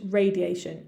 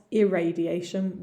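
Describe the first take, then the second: First: "radiation" starting straight on RAY; pronunciation contrast. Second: "irradiation" with an extra opening "ir" syllable; contrasting word. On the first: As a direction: say "radiation" with no leading "ir". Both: Shown as a demonstration. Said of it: "not irradiation".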